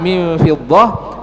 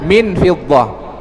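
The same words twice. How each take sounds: First: The n is hidden as a nasal sound. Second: The n is pronounced clearly and fully. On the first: The speaker calls it right. "harusnya dibaca ikhfa" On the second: The speaker calls it wrong.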